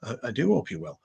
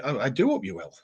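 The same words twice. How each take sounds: First: Softer, stress on do; mock-posh repeat. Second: Softer, mock-polite repeat; mock-posh repeat. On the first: Echoing the viewer again with a teasing, polite do. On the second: Echoing a viewer's sign-off in mild mock politeness. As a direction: gently ham up the politeness. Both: Shown as a demonstration. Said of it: "the Mickey taking is continuing".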